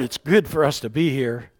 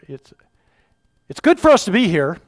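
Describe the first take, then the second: First: It is read in a plain, calm way. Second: It is read in a flustered, overwhelmed way. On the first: Peter speaks with composure. The speaker calls it wrong. "I didn't say it with the inflection that I feel it probably" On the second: Peter is caught off guard and blurting. The speaker calls it right. "Just a little different"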